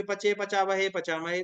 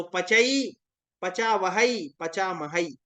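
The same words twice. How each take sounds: First: पचे, वहे, महे each ending in a short plain "e"; mispronounced endings. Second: पचई, वहई, महई each ending in a two-part "ai"; correct pronunciation demo. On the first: Teacher mimicking students' misreading, पचे with a plain "e" ending. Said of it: "अब ये जो पचे दिख रहा है". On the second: Teacher correcting students on the two vowel marks, पचई with a clear "ai" ending. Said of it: "इस तरीके से रूप चलेंगे". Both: Shown as a demonstration.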